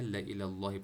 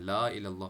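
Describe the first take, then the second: First: A short 'la' runs straight into the next word. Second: The 'la' is stretched long before the next word. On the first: Indeed to Allah. The speaker calls it right. "ला इलल्लाहि पढ़ना है" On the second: Not to Allah. The speaker calls it wrong. "ला इलल्लाह गलत है"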